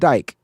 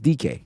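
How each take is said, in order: First: The name is said as one syllable. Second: The name is said as two syllables. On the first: The speaker calls it wrong. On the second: The speaker calls it right. "It's D K for sure"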